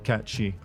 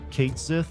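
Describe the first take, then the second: First: The name is said the Scottish folklore way. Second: The name is said the officially confirmed way. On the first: This follows the traditional folklore name. "these people could not simply read the words Cait Sith and pronounce it any other way other than catchy" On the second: This is the confirmed name of the character. "his name is pronounced confirmed by Square Enix, and it is in fact Cait Sith"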